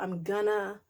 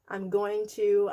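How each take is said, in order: First: Going to is squeezed into the shorter gonna. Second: Going to is said with every sound in full.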